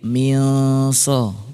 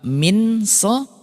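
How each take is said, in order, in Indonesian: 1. Bunyi n samar menjadi dengung sengau. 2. Bunyi n diucapkan jelas dan penuh.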